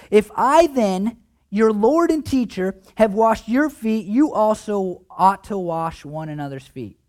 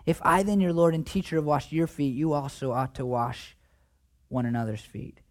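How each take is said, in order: First: Words spaced and weighted; reading Jesus's words with gravity; slow emphatic scripture. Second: Fading to a hush; rereading the verse gently, dropping away; soft reading. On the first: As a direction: lean on each phrase, slowly. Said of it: "Jesus says this". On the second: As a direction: let it sink in softly, quieter to the end. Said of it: "let me read it to you again". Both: Acted.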